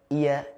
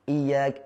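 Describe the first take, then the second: The two takes are said the same way.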